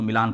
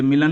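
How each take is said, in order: First: मिलान with a long open "aa", like "mi-LAAN"; correct Milan pronunciation. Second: मिलन with a short second vowel, like "MI-lun"; mispronounced Milan. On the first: Teacher showing students the right reading, long-vowel मिलान. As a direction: draw out the second vowel of मिलान as "aa". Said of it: "इसको मिलान पढ़ना है". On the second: Teacher showing students the wrong reading, short-vowel मिलन. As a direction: say मिलन with a short, unstressed "a" before the n. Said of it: "ये मिलन नहीं पढ़ना है". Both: Shown as a demonstration.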